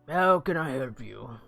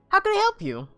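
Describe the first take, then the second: First: It is said in a harsher character voice. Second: It is said in a much kinder voice.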